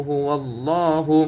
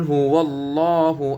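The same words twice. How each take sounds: No difference in how they are said.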